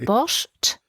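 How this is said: The word is said with a German pronunciation. "die Deutschen sind, glaube ich, die einzigen, die Borscht sagen"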